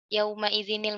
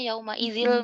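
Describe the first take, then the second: First: The nun is kept, followed by a linking 'i'. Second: The nun is dropped, running straight into 'il'. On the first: The speaker calls it right. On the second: The speaker calls it wrong.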